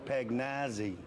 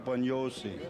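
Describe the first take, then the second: First: The surname has an Americanized pronunciation. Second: The surname has an Italian pronunciation. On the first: "they pronounce this show, ... in the States, is Pagnazzi" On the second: "And that's the way you pronounce it"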